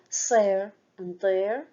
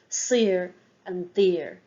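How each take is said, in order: First: The words are pronounced in the Munster way. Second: The words are pronounced in the Connacht-Ulster way. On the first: "in Munster, they pronounce it more" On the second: "in Connacht and Ulster, it is pronounced a little more like"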